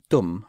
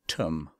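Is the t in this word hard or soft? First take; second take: soft; hard. First: The t is soft, with the tongue on the teeth. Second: The t is hard, in a British accent. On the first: The speaker calls it right. "instead of saying tum, which means you" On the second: The speaker calls it wrong. "they might say tum ... with a British accent"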